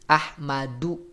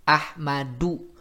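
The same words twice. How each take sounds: The two takes are said the same way.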